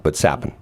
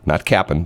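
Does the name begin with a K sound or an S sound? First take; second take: S sound; K sound. First: The name begins with an S sound. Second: The name begins with a K sound. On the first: The speaker calls it right. "My name's Sapin" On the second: The speaker calls it wrong.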